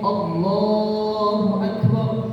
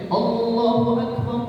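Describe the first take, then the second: First: The 'l' sound in 'Allah' is long. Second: The 'l' sound in 'Allah' is short. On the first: The speaker calls it right. "lamnya panjang" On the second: The speaker calls it wrong. "Lamnya dibaca pendek"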